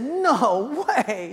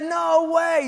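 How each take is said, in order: First: Higher, louder mock disbelief. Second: Much higher, louder mock shout of disbelief. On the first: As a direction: act out disbelief at the news. Disbelieving reply in retold dialogue. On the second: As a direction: yell it in playful disbelief.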